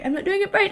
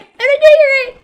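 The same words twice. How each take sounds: First: Said in the usual way. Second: Much higher and louder, strained; high girl voice. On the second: Shown as a demonstration. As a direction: push it up into a high loud voice. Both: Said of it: "I'm not doing her voice right".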